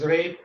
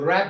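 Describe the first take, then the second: First: The vowel is like the one in cake. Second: The vowel is like the one in cat.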